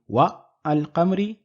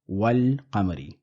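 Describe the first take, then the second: First: A break separates wa from al qamari. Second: Wa runs straight into al qamari without a break. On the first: The speaker calls it wrong. "Rather than saying wa al qamari" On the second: The speaker calls it right. "we have wal qamari"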